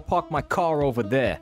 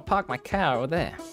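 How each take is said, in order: First: It is spoken in a New York accent. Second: It is spoken in a Boston accent. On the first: "if you would speak with a New York accent" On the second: "But if it's Boston"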